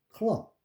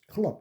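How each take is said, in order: First: The word is drawn out with an extra vowel. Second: The word is said short and clipped. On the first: The speaker calls it wrong. "클럽이 아니에요" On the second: The speaker calls it right. "짧게 해야 돼"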